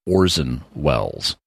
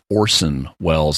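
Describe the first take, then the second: First: The middle consonant of 'Orson' is a Z sound. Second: The middle consonant of 'Orson' is an S sound. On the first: The speaker calls it wrong. "not Orson Welles" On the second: The speaker calls it right. "that is an S, not a Z sound. It's Orson Welles"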